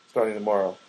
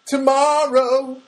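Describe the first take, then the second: First: Said in the usual way. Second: High, loud, drawn-out TOMORROW; sudden loud, high exclamation; emphatic proclamation. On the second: Real, not acted. Exclaims the word just said.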